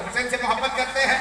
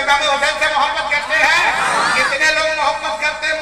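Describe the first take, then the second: First: Said in the usual way. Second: Same question thrown out louder to the crowd; preacher loudly rousing the gathering; louder rousing call. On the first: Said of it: "अब बोले, इधर तवज्जो दो". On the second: Shown as a demonstration. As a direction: push it out loud to stir them. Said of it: "अरे बोले, भाई".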